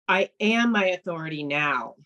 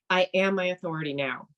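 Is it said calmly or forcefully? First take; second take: forcefully; calmly. First: It is said forcefully, with intense conviction. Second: It is said calmly, without much force.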